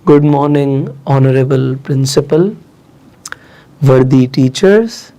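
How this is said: It is said shakily and nervously. The speaker has stage fright. "वहां पे घबराता हुआ मैं बोल रहा था"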